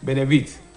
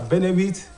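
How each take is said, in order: First: The stress is on the third syllable. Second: The stress is on the first syllable. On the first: The word is used as a verb. "it is going to be termed a verb" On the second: The word is used as a noun. "when you pronounce it as a benefit, it is what? It is a noun"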